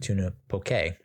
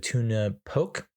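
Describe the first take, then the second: First: Poke is said with its native pronunciation. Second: Poke is said with an anglicized pronunciation. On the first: The speaker calls it right. "I believe it's actually pronounced tuna poke" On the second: The speaker calls it wrong. "That's how you pronounce it as a Caucasian"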